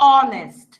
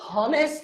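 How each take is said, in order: First: The word starts with a vowel, no h. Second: The word starts with an audible h sound. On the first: The speaker calls it right. "আমি বলতেছি অনেস্ট" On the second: The speaker calls it wrong. "এটা কি আমি হনেস্ট বলতেছি? না"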